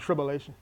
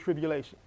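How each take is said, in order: First: The U vowel is reduced and unclear. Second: The U vowel is pronounced clearly. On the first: The speaker calls it wrong. "Otherwise it sounds like tribulation. And that's not a word" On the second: The speaker calls it right. "I gotta pronounce the U better"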